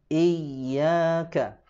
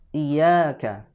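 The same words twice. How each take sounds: First: The doubled y is pressed and held. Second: The doubled y is short and rushed. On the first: The speaker calls it right. "ditekan selama satu ayunan, lalu dipanjangkan" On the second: The speaker calls it wrong. "tidak ditekan"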